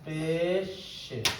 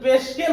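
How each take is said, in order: First: The middle sound is a soft 'sh'. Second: The middle sound is a hard 'sk'. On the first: The speaker calls it right. "পেশে মানে কি? ... পেশে" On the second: The speaker calls it wrong. "এটা কিন্তু পেশকে না"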